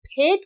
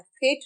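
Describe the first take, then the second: First: फेंट with a puff from closed lips; Hindi ph. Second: फेंट with f, lips apart; wrong English F. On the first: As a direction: pop the फ of फेंट. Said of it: "फेंट होता है". (फेंट में हिंदी फ) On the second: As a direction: blow फेंट on an f. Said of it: "फेंट नहीं होता है". (फेंट में गलत नुक़्ते वाला फ़) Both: Shown as a demonstration.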